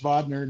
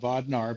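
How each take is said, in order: First: The second syllable ends with a weak 'ner' sound. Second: The second syllable ends with a broad 'nar' sound. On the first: The speaker calls it right. "it's Bodner" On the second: The speaker calls it wrong. "not Bodnar"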